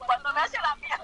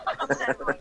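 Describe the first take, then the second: First: Said in the usual way. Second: Repeated much lower, in a put-on voice; imitating the pastor. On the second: Pastor begging her for his own deliverance, lower mock voice. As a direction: drop low to mimic the pastor pleading. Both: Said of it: "me dijo".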